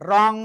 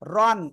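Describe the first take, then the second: First: The word ends in a nasal ng sound. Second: The word ends in a clear n sound. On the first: The speaker calls it right. "আসলে উচ্চারণ হবে কেমন" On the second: The speaker calls it wrong. "Simple উচ্চারণ হওয়ার কথা ছিল"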